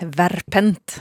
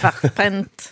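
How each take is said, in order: First: The name is said without a German pronunciation. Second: The name is said with a German pronunciation. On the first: The speaker calls it wrong. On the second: The speaker calls it right.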